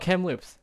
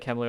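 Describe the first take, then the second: First: The name ends with a final s sound. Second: The name ends without a final s sound. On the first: The speaker calls it right. "I think it is just Kamloops. Okay, I'm wrong" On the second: The speaker calls it wrong. "I'm gonna say Kamloo. I don't know. Maybe it's wrong"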